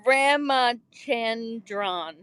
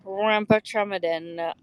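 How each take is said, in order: First: "Ramachandran" very slowly, syllable by syllable; careful pronunciation. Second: "Ramachandran" stumbled through with muddled middle syllables; botched pronunciation. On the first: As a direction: sound out "Ramachandran" with drawn-out, separated syllables. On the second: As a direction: butcher the name "Ramachandran", unsure of its sounds. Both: Shown as a demonstration. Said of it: "I totally butchered that".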